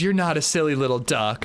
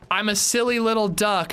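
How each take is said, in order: First: Said in the usual way. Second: High, sing-song silly voice; mock Laura Palmer. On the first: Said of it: "and he goes". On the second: Laura Palmer telling her boyfriend she's silly, high mock voice. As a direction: play her cutely self-mocking, pitched up. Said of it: "she goes".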